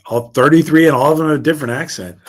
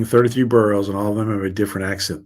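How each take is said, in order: First: Higher, louder burst of surprise; real amazement. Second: Said in the usual way. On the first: Real, not acted. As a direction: repeat it loudly, astonished at the fact. Amazed at what was read.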